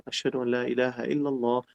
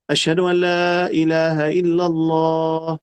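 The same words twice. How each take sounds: First: Much softer, spoken repeat of the call; soft listener's response to the adhan; quiet reply. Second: Slow, drawn-out chanted call; sung, a light take on the adhan call; sung, muezzin's call. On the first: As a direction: murmur it back to yourself. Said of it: "Tú vas a decir". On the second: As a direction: sing it out like from the minaret. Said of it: "vamos a llegar". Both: Shown as a demonstration.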